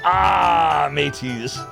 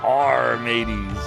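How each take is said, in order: First: It is said with the R sound dropped. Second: It is said with the R sound pronounced.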